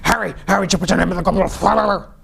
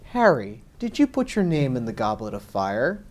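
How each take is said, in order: First: The question is asked in a pushy, aggressive way. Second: The question is asked in a gentle, calm way.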